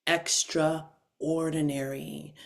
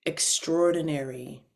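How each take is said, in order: First: "Extraordinary." spoken slowly and softly, every syllable drawn out; savoring the big word. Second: Said in the usual way. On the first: Shown as a demonstration. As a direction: let "Extraordinary." roll out slow and soft. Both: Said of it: "This is a big word".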